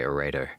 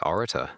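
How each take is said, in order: First: It is said in an American accent. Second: It is said in a non-American accent. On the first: "I bet Americans say orator" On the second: "I'd say orator"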